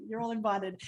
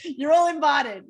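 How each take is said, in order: First: Said in the usual way. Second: Loud, higher, excited call; called-out invitation. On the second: Real, not acted. Host inviting everyone on the call to the wedding, excited shout. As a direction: call it out to the whole group.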